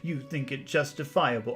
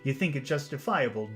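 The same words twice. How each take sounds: First: It is said in a whining, complaining voice. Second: It is said in a plain, ordinary voice.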